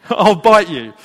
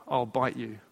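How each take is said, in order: First: Loud, amused re-quote through laughter; laughing repeat. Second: Low, quiet deadpan threat. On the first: Preacher relishes lady's threat to his dad, laughing repeat. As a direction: repeat the mock threat loudly, cracking up. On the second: Lady warns dad off the train window, deadpan threat. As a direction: issue the threat softly and low, in all seriousness. Quoting the lady's threat, then repeating it. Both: Retold or imitated.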